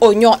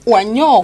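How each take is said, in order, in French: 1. La première voyelle se prononce un 'o' simple. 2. La première voyelle se prononce 'wa', comme à l'écrit. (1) "mais on dit oignon" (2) "on écrit O I. Donc normalement on doit dire oignon"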